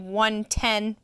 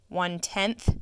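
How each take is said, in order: First: The word ends without a th sound. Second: The word ends with a th sound. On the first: The speaker calls it wrong. "We don't say one ten" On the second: The speaker calls it right. "We say one tenth"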